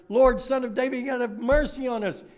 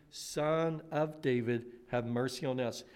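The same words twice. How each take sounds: First: Higher, louder pleading shout; desperate cry. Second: Quiet reflective prayerful plea; soft plea. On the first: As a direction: call out over the crowd, begging. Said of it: "They shouted all the louder". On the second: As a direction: murmur the plea gently. Blind men's plea recalled softly. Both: Acted.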